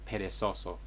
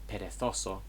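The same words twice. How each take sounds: First: The z is said like an s sound. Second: The z is said like a th sound. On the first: This is the South American pronunciation. "South America" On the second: This is the pronunciation used in Spain.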